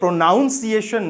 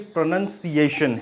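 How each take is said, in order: First: The second syllable sounds like 'noun'. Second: The second syllable sounds like 'nun'. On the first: The speaker calls it wrong. "ये प्रोनाउंसिएशन नहीं है" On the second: The speaker calls it right. "ये प्रोनंसिएशन है"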